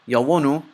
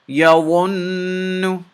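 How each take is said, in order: First: The n sound is short, not held. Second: The n sound is held long through the nose. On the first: The speaker calls it wrong. "I didn't say yawunu. That would be wrong" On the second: The speaker calls it right. "You have to hold the noon in your nose a little bit, and you have to say it like this"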